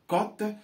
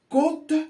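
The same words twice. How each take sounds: First: The o vowel is said open. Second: The o vowel is said closed. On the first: It means the market value of something. "cela veut dire qu'il n'y a pas d'accent circonflexe" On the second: It means the coast or seaside. "cela signifie qu'il y a un accent circonflexe sur le O"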